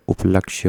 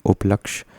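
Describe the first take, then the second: First: उपलक्ष्य said as "uplakshye"; correct y ending. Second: उपलक्ष्य said as "uplaksh"; wrong clipped ending. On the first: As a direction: sound the final y of उपलक्ष्य. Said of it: "होता है". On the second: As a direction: end उपलक्ष्य on sh, no y. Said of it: "गलत लिखा हुआ है". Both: Shown as a demonstration.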